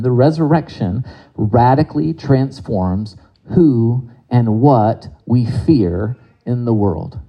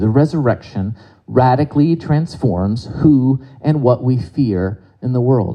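First: It is said with strong emphasis. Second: It is said with little emphasis. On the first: The speaker calls it right. "I'll say that again" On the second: The speaker calls it wrong. "I should have said it with more emphasis the first time"

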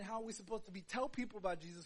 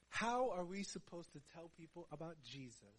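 First: The phrase is spoken at a faster pace. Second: The phrase is spoken at a slower pace. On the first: The speaker calls it wrong. "that was a mouthful" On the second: The speaker calls it right. "Let me say again, slower"

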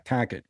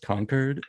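First: It is said in a Boston accent. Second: It is said in a plain, non-Boston accent. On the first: The locals' way of saying the name. "And they're like, nah, Cacket" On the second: The speaker's own way of saying the name. "I'm like, yes, Concord"

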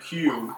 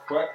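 First: The word is said like 'kyoo'. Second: The word is said like 'kway'.

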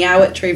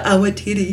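First: The name ends in a short 'tree' sound. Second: The name ends in a two-syllable 'tiri' sound. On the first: This is how locals say it. "That's a local pronunciation as well" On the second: This is the usual non-local way. "instead of the Awatiri"

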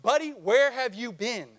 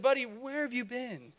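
First: It is said in an angry, scolding tone. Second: It is said in a soft, gentle tone.

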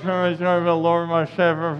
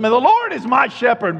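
First: It is mumbled in a drowsy, low-energy way. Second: It is said boldly, with confident energy.

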